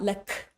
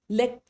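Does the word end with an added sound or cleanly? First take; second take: added sound; clean ending. First: The final consonant has extra air or vowel. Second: The word ends cleanly on the final consonant. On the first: The speaker calls it wrong. "not lick" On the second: The speaker calls it right.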